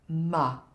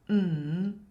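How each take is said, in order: First: The m is followed by an added uh vowel. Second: The m is said alone, with no vowel after. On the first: The speaker calls it wrong. "not ma" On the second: The speaker calls it right. "not to add an uh at the end of the consonant sound"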